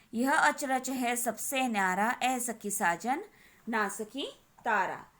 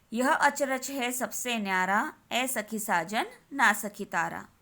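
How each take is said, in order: The two takes are said the same way.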